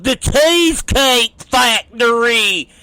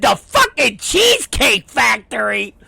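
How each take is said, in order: First: A lightly voiced hillbilly, proudly naming the place. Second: Disbelieving repeat, rising at the end; incredulous echo. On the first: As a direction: say it like it's the fanciest spot on earth. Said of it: "He goes". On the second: Retold or imitated. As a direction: throw his words back in disbelief. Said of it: "I said".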